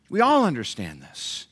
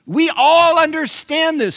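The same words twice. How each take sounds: First: Said in the usual way. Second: Slow, much louder and higher, ALL hammered; "We all understand this" boomed slowly with "all" stretched high; emphatic preaching. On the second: Shown as a demonstration. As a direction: thunder "all" out to the church. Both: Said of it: "don't we, church?".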